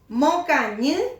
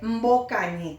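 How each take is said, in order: First: The word begins with a plain m sound. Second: The word begins with an mb sound. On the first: The speaker calls it right. "¿Cuál es el que suena bien? Mocañi" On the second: The speaker calls it wrong. "en vez de"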